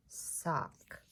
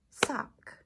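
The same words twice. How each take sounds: First: Said in the usual way. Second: "Sock" as one firm beat; "Sock" struck as a single syllable; single clapped syllable. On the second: Shown as a demonstration. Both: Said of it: "One syllable for sock".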